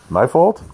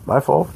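First: My fault? with a sharp rising question tune; rising disbelieving My fault?; incredulous question. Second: My fault. said as a settled statement; calm accepting My fault; firm admission. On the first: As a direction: ask My fault? as if doubting it. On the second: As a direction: own it, My fault. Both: Shown as a demonstration. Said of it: "The frum way is to say like this".

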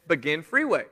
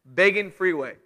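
First: "Begin freeway" said plainly, Begin as bih-GIN; reading the sign. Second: "Begging" said BEG-ing, like begging, not Begin; dad's pun. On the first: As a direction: read the road sign straight, "Begin" with a short i. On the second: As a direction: turn "Begin" into "Begging" with a long a sound. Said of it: "That was his line". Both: Shown as a demonstration.

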